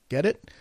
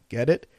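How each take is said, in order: No difference in how they are said.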